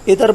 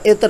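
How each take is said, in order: First: A vowel is inserted between the final consonants. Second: The final consonants are said together without vowel. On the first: The speaker calls it wrong. "इतर इतर बोला जाता है, तो ये गलती है" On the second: The speaker calls it right. "तो लिहाजा इत्र लफ्ज़ होगा"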